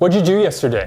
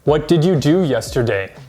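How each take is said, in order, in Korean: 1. 'did'는 줄어들어서 'what'에 붙여 발음해요. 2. 'did'는 완전한 하나의 단어로 따로 발음해요. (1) "native speakers actually say this" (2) "Many English learners will say this"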